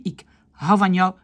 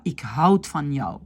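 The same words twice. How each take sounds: First: Ik hou van jou with no d after hou; correct, silent d. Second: Ik houd van jou with the d sounded; wrong, pronounced d. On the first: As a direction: glide from hou straight into van. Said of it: "On dit". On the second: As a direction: articulate the final consonant of houd. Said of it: "mais on ne dit pas". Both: Shown as a demonstration.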